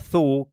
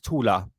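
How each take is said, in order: First: The word is said as one syllable, like 'tool'. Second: The word is said as two syllables, 'too-la'. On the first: The speaker calls it wrong. "when it says the word" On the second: The speaker calls it right. "the real pronunciation of that is Tula"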